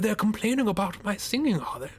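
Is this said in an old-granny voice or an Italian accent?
granny voice. It is said in an old woman's voice. "Giving her an old granny voice"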